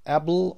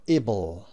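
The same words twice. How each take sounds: First: "able" said eh-bull; open-vowel "ible". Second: "able" said ih-bull; short-I "ible". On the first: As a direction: begin "able" with an open "eh" sound. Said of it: "pronounced able or able". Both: Shown as a demonstration.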